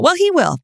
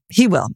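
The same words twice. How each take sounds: First: "he will" lifted high and pressed; insisting he will. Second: Said in the usual way. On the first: Real, not acted.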